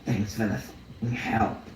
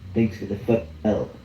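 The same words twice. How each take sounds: First: It is said in an imitated voice. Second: It is said in his normal voice.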